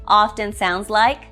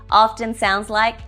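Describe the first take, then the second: No difference in how they are said.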